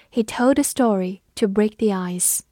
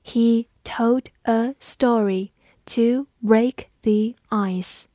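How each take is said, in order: First: Said in the usual way. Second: Slow, careful model reading; teacher reading slowly for the class. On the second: Shown as a demonstration. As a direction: stretch each word out slowly. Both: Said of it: "我们慢读一遍".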